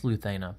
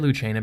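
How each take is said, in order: First: The name is said the Castilian Spanish way. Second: The name is said the Italian way. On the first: The speaker calls it right. "because it's um, Castilian Spanish" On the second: The speaker calls it wrong. "that's how an Italian would pronounce it"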